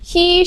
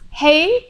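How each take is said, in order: First: The vowel is a long ee sound. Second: The vowel is an ay sound. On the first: "the pronouns he" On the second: "were pronounced hey"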